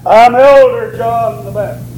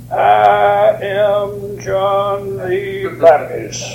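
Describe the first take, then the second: First: Lightly pompous self-introduction, leaning on Elder; hint of a self-important elder; mock titled introduction. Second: Very slow, drawn-out, self-important introduction on one held pitch; mock grand announcement. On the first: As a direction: announce yourself with a mock church title. Mock titled answer he never gave. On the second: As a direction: stretch every word out pompously. Mock answer the Baptist never gave.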